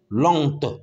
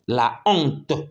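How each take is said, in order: First: The vowel of la is dropped before honte. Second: The vowel of la is kept before honte. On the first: The speaker calls it wrong. "Non, ça ne marche pas" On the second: The speaker calls it right. "on ne peut pas supprimer A ici et mettre apostrophe"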